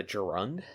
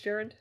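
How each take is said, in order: First: Gerund said as juh-RUND; mispronounced gerund. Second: Gerund said as JERR-und; corrected gerund. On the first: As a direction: stress the second syllable of gerund, juh-RUND. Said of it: "It's pronounced gerund". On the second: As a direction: stress the first syllable of gerund, JERR-und. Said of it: "is it pronounced gerund". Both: Real, not acted.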